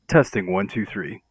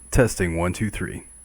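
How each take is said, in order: First: Background noise is suppressed behind the voice. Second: Some background noise is heard behind the voice. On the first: "with noise canceling enabled" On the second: "with noise canceling disabled"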